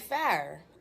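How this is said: It is said in a Pittsburgh accent. "we say fire"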